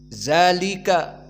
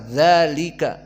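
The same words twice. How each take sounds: First: The word begins with a buzzing 'z' sound. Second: The word begins with a soft 'dh' sound. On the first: The speaker calls it wrong. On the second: The speaker calls it right.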